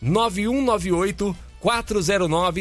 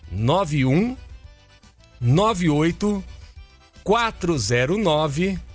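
First: It is said at normal speed. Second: It is said slowly.

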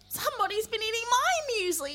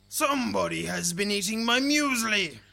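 First: It is said in a whining, dismayed voice. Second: It is said in a big, deep growly voice.

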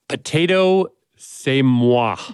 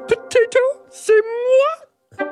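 First: It is said in their normal reading voice. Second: It is said in a put-on Miss Piggy voice.

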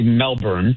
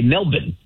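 First: It is said with an American pronunciation. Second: It is said with an Australian pronunciation.

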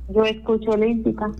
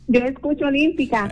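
First: It is said plainly, without much energy. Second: It is said with eager, lively energy.

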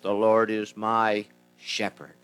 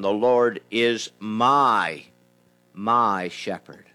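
First: The stress is on the word shepherd. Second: The stress is on the word my.

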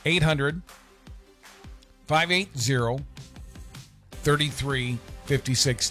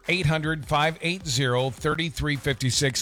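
First: The number is said more slowly. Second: The number is said at normal speed.

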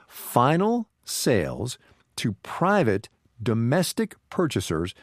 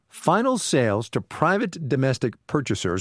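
First: It is said very slowly. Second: It is said at normal speed.

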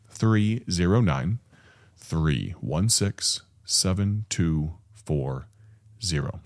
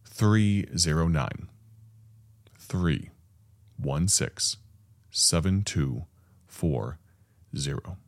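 First: The number is said at normal speed. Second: The number is said slowly.

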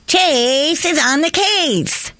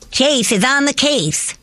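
First: It is said with more excitement. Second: It is said with less excitement.

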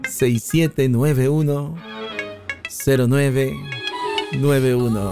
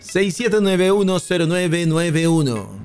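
First: The number is said more slowly. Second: The number is said at a quicker pace.

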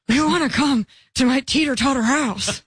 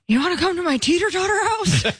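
First: It is said at a slower pace. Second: It is said at a faster pace.

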